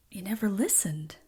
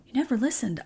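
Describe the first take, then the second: First: Hushed, breathy retelling of never listened; quietly retold reproach to family; whispered retort. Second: Said in the usual way. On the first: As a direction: whisper it like a wounded accusation. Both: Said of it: "And I'm like".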